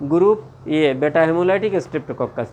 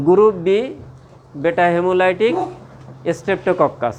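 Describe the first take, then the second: First: group এ stressed, said slowly as the correction; teacher slowly fixes the slip, stressing group এ; slow corrected stress. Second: Said in the usual way. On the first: Shown as a demonstration. Teacher corrects his slip for the students, slow and stressed.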